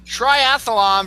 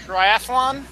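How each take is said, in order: First: "triathlon" as "tri-ath-a-lon", slowly; extra-syllable triathlon. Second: "triathlon" as "tri-ath-lon", questioning; three syllables in TRIATHLON, pitched up; standard triathlon. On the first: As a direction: add an UH before LON in TRIATHLON. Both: Shown as a demonstration. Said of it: "It's that extra A".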